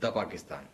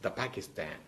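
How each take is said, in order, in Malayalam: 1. 'the' എന്ന വാക്ക് 'thuh' എന്ന് ഉച്ചരിക്കുന്നു. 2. 'the' എന്ന വാക്ക് 'thuh' എന്ന് ഉച്ചരിക്കുന്നു.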